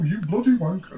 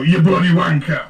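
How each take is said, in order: First: It is said in a crisp, posh accent. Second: It is said in a rough, slurred accent. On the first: The speaker calls it wrong. "you can't say it too posh" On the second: The speaker calls it right. "you muddy it up a little bit"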